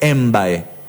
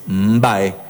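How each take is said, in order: First: The word starts with an added e vowel. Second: The word starts directly with the mb consonant. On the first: The speaker calls it wrong. "No es embae" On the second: The speaker calls it right. "es mbae, con mb"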